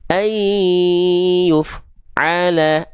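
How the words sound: The f sound stops with a gap before the vowel. The speaker calls it wrong. "jangan sampai dia dibaca begini"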